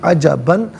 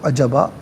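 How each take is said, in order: First: The word ends with an n sound. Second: The word ends with a long plain vowel. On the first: The reader continues without stopping. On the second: The reader stops at this word.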